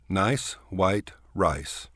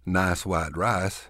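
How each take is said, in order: First: The vowels glide as full diphthongs. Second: The vowels are flattened into single vowels.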